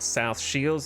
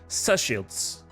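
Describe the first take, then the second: First: Both words are said fully and separately. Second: The words are squashed into one clipped word. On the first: "this is not South Shields" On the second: "this is Sushields"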